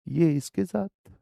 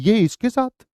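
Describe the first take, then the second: First: It is said in a shocked, hurt tone. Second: It is said in an excited tone.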